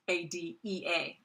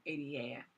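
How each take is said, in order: First: A D E A spelled out, each letter separate; careful correction. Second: A D A run together, a letter short; rushed slip. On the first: Lecturer correcting a rushed acronym, careful A D E A letter by letter. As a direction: space out the letters A D E A, giving the E its place. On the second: Lecturer naming an amended act, rushed slip on A D A. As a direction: say A D A quickly, slurring past the letters. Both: Real, not acted. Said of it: "I'm just speaking too fast".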